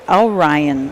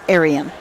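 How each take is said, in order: First: The name begins with an 'or' sound. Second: The name begins with an 'air' sound. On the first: The speaker calls it right. "he said it's Orion Racing" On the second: The speaker calls it wrong. "not Arian"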